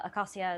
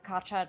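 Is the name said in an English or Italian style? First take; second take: English; Italian. First: The name is said in an English way. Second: The C is said as a ch sound. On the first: "a fairly common anglicization" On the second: "Italianate Latin, where a C followed by a soft vowel gets a ch"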